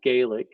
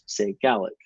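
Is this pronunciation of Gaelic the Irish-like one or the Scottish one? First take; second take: Irish-like; Scottish. First: Gaelic is said the Irish-like way. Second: Gaelic is said the Scottish Gaelic speakers' way. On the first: This is closer to the Irish form of the name. "in Ireland, it's more like Gaeilge, and it sounds more like Gaelic" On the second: This is how Scottish Gaelic speakers name the language. "people in Scotland, especially if they're Gaelic speakers, say Gaelic"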